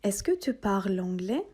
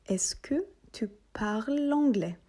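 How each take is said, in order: First: Said in the usual way. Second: Slow model question. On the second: Shown as a demonstration. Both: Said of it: "Haydi tekrar edip".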